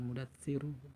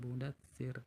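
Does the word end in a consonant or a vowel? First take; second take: vowel; consonant. First: The word ends with a final u vowel. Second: The word ends on the consonant r. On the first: The speaker calls it wrong. "jangan mudatsiru" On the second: The speaker calls it right. "bacanya mudatsir"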